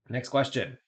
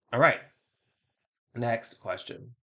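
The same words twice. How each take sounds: First: Flat machine-like announcement; robot voice. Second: Slow, drawn-out robot voice. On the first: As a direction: say it like a robot host. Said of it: "hate the robot voice thing". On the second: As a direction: announce it like a slow machine. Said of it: "the robot voice thing that I'm doing". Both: Acted.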